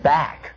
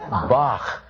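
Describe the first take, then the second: First: The name ends in a plain k sound. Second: The name ends in a throaty German sound. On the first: The speaker calls it wrong. "It isn't back" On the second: The speaker calls it right. "if you pronounce Johann Sebastian's name correctly, in German, it is Bach"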